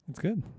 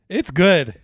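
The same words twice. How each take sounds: First: It is said in a mild, lukewarm way. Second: It is said in an excited, enthusiastic way. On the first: The movie was fine but not amazing. "it's not like overly like, oh, that was amazing, but it's not bad" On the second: The movie was amazing. "What is like the amazing good?"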